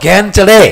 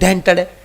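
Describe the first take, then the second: First: The phrase is said with clear ordinary sounds. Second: The phrase is said with a childish lisp.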